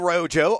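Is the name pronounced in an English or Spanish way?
English. The name is pronounced the English way.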